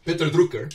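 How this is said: The name is said with a German accent.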